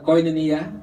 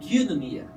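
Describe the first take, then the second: First: It is pronounced the way English readers say it. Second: It is pronounced the way Greek speakers say it. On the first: The speaker calls it wrong. "That's the typical if you read it in, in English" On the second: The speaker calls it right. "but the pronunciation is"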